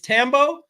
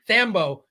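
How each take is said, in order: First: The H sound after the T is silent. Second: The H sound after the T is pronounced. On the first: "The H is silent" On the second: "you just say Tambo with with with an H. The H is not silent"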